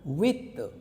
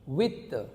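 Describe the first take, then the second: Both takes have the same delivery.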